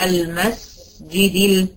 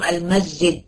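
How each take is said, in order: First: The s sound is drawn out longer. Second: The s sound is cut short. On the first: The speaker calls it right. "لكن أنا ايه الصح؟" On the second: The speaker calls it wrong. "لو ما ادوش السين رخاوتها، يعني طولوا زمانها شوية"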